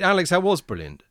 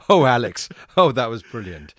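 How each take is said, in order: First: It sounds sincere and plain. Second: It sounds fake, with a forced chuckle.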